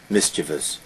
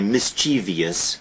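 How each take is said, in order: First: No extra 'ee' sound comes before the ending. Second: An extra 'ee' sound comes before the ending. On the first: The speaker calls it right. "there is no E there" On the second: The speaker calls it wrong. "Americans will always say mischievous, but there is no I there"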